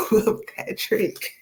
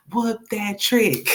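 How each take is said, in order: First: Chanted, high, breathy "whoop that trick" through laughter; chanted, laugh the line out, barely voiced. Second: Chanted song line. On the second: Pretend.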